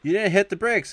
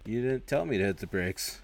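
First: High, loud imitated outburst; mock alarmed scolding. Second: Said in the usual way. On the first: Passenger to driver after bumping a car, mock alarmed scolding. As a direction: yell it like a startled passenger.

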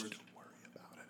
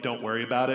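First: Quick, barely-there whisper; mouthed words. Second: Said in the usual way. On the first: Acted. Steven mouthing reassurance behind the others' backs, whispered. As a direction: mouth it almost silently, very fast. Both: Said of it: "just mouth the words".

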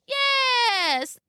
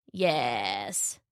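First: Very high, drawn-out fake granny; wolf as grandmother. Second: Low, drawn-out sly answer; wolf as grandmother. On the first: Wolf answering Little Red eagerly, high fake voice. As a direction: squeal it out high and long. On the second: Wolf answering Little Red, low and sly. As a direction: drop it low and stretch it. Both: A narrator's reading.

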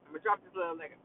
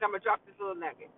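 First: Repeated much lower and softer, deep and weighty. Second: Said in the usual way. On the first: Real, not acted. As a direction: drop your voice way down and lay it on heavy. Repeats the line for emphasis.

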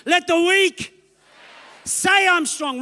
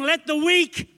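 First: Higher, fuller declaration; stronger declaration. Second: Said in the usual way. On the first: Shown as a demonstration. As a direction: say it like you believe it. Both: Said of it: "that was okay".

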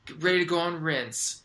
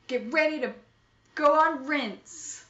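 First: Said in the usual way. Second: Hero announcement. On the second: Acted. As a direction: announce it like a superhero.

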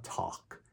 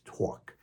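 First: "talk" with an open ah vowel, like "tahk"; non-Queens pronunciation. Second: "talk" with a New York aw, like "tawk"; Queens accent. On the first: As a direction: say "talk" without the New York aw. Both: Shown as a demonstration. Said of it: "I'm from Queens, New York".

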